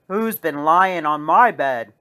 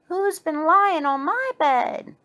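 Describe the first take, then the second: First: It is said in a big, deep bear voice. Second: It is said in a medium-sized bear voice.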